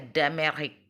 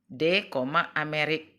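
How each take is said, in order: First: The d runs straight into Amérique. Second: The d and Amérique are said separately.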